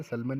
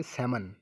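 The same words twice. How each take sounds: First: "सलमन" with l sounded before the m; wrong pronunciation. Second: "सैमन" going from vowel straight to m; silent l. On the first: Teacher warning students off a reading, l sounded in "सलमन". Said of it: "सलमन नहीं पढ़ेंगे". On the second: Teacher giving students the correct reading, silent l in "सैमन". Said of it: "पढ़ेंगे आपके सैमन". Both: Shown as a demonstration.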